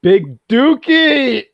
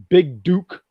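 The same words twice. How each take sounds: First: High, loud, drawn-out "Big Dookie!"; exaggerated crowing shout of a silly name; gleeful mock shout. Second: "Big Duke" said slowly, coming out like "Big Dookie"; "Big Duke" drawn out, easily misheard as "Big Dookie"; sounds like Big Dookie. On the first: Gleefully blurts out the misheard name. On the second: Real, not acted. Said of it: "It sounds like you're saying Big Dookie".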